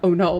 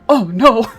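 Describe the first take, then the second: First: It sounds mildly alarmed. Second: It sounds intensely alarmed.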